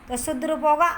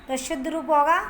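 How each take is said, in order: Both takes have the same delivery.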